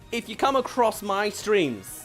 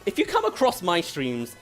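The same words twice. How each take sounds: First: The pitch melody is plain and flat. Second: The pitch melody is varied and expressive. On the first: The speaker calls it wrong. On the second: The speaker calls it right.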